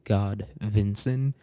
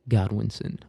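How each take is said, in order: First: The second syllable begins with a V sound. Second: The second syllable begins with a W sound. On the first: The speaker calls it wrong. "they pronounce their W's like Vuz" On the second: The speaker calls it right. "I think Godwinson sounds better"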